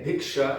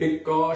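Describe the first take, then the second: First: It is said with the sh sound. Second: It is said without the sh sound. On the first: This is the Hindi and Sanskrit way of saying it. "And we and we say bhiksha" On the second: This is the Bengali way of saying it. "real, authentic Bengalis do not pronounce the sh. They say bhikka"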